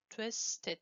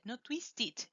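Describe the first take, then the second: First: Twisted with a clear W, TWIS-tid; correct twisted. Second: Twisted without the W, TIS-tid; wrong twisted. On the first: Teacher models Twisted with a clear W. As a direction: sound the W in Twisted. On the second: Teacher mimics twisted said without W. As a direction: drop the W from twisted. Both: Shown as a demonstration.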